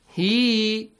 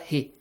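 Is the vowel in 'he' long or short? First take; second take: long; short. First: The vowel is drawn out long. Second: The vowel is said short. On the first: The speaker calls it right. "you extend the sound he" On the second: The speaker calls it wrong. "not he"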